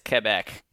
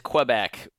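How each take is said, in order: First: It is said with a local French-style pronunciation. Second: It is said with an American English pronunciation. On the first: This is how locals in the region say it. "but there they say it as Quebec" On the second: This is how the speaker's own community says it. "we would say it as Quebec"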